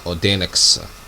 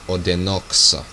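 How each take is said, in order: First: The vowel before the end is barely pronounced. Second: The vowel before the end is fully pronounced. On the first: The speaker calls it right. "that's why I pronounce this" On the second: The speaker calls it wrong. "instead of"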